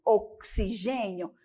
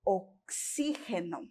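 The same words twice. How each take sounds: First: "oxigênio" stressed GÊ, with a zh sound; Portuguese stress on GÊ. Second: "oxígeno" stressed XÍ, g as a throaty h; Spanish stress on XÍ. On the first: Teacher gives the Portuguese, stressing GÊ in "oxigênio". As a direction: lean on GÊ in "oxigênio". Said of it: "No português nós temos". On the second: Teacher contrasts the Spanish, stressing XÍ in "oxígeno". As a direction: hit XÍ, rasped g in "oxígeno". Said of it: "Em espanhol nós vamos ter". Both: Shown as a demonstration.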